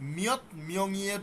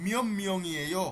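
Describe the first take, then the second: First: The first word ends with a t sound. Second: The first word ends with an m sound. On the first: "মিয়ত মিয়ং ইয়ের জায়গায়" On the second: "মিয়ম মিয়ং ইয়েও হবে"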